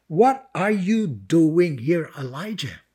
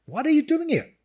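First: Measured divine question. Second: High-pitched, pressing question; incredulous repeated question. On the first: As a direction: ask it deliberately, letting the name fall away. God's question read, then repeated. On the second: God's question repeated more insistently. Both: Acted.

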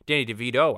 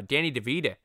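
First: Said in the usual way. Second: "DeVito" ending in a Boston uh, "DeVeeda"; Boston accent. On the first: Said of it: "I should say". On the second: Acted. Podcaster slipping on a star's name, Boston accent. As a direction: say "DeVito" with a soft d and Boston final vowel. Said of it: "sorry about my Boston accent there".

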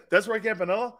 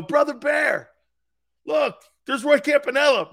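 First: Retold disbelief with rising end; incredulous question. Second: Loud, high retold call; excited pointing out. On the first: Grandfather seeing the player at the ballpark, incredulous question. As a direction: ask it doubtfully, laughter creeping in. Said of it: "he goes". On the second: Pals pointing out the player to grandfather, excited shout. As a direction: shout it proudly to a pal. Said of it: "and they go".

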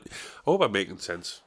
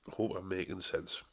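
First: Said in the usual way. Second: A much softer echo of the line; much softer repeat. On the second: Shown as a demonstration. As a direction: drop the level way down, as if to himself.

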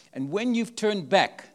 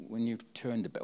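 First: "when you've turned back" drawn out slowly, with weight on "when"; slow emphatic quote. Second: Said in the usual way. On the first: Shown as a demonstration. Preacher quoting Jesus to the congregation, slow and emphatic. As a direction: lean on "when" and stretch the phrase. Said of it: "when you've turned back, what does that mean". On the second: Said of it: "what does that mean".

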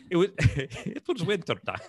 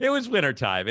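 First: Quoting in a Russian-sounding accent; Irish try that drifts into Russian accent. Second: Said in the usual way. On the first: Shown as a demonstration. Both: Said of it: "That's like a Russian accent".

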